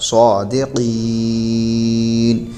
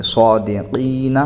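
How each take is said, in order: First: صادقین held very slowly, voice and breath cut off at the end; pausal form. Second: صادقین said slowly, ending drawn on; reading without pause. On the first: Teacher showing the stop on صادقین. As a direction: stop fully on the last letter of صادقین. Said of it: "آگے وقف". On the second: Teacher reading صادقین without a pausal stop. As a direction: join صادقین smoothly, no stop. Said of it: "کوئی وقف نہیں کریں گے". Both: Shown as a demonstration.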